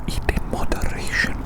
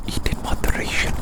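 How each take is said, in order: Both takes have the same delivery.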